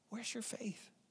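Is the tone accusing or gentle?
gentle. It sounds gentle and caring.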